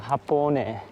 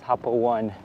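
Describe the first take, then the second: First: The ending is said as separate vowels 'o-neh'. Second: The ending is said like the English word 'one'. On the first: The speaker calls it right. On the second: The speaker calls it wrong.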